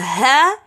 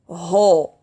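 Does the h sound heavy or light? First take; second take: light; heavy. First: The h sounds light with an open a vowel. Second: The h sounds heavy with a rounded o vowel. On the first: The speaker calls it right. "Ha as a ha" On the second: The speaker calls it wrong. "we read it as a ho"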